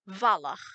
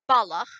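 First: The word begins with a v sound. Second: The word begins with a b sound. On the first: "to V" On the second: "So you've gone from B"

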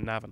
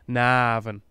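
First: The vowels are said short and plain. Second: The vowels are drawn out very long. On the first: This is how others say it. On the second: This is how locals say it.

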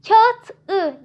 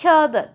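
First: The consonant before the ending is a hard t. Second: The consonant before the ending is a soft d. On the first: The speaker calls it wrong. "diyemeyeceğimize göre" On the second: The speaker calls it right. "artık kağıdı demiş oluyoruz"

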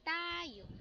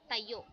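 First: The word is drawn out long. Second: The word is said short.

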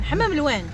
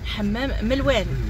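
First: The second word starts with a vowel sound. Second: The second word starts with an m sound. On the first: The speaker calls it wrong. "مش حمام الوان" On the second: The speaker calls it right.

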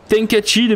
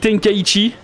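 First: The middle syllable is said as plain 'ka'. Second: The middle syllable is said as 'kai'. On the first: Some other people say it this way. "Tenkachi, même des fois" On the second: This is how the speaker says it. "Moi je dis Tenkaichi"

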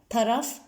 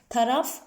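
The two takes are said the same way.

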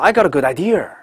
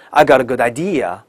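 First: The last word ends with a curled r sound. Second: The last word ends with no r sound. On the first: The speaker calls it wrong. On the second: The speaker calls it right.

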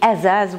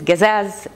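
First: The word begins with a glottal stop. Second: The word begins with a hard g sound. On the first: This is the city form expected from women. "azaz with glottal stop for a woman" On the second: This is the traditional Jordanian dialect form. "which is gazaz in the traditional Jordanian dialect"

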